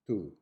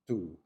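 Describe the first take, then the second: The two takes are said the same way.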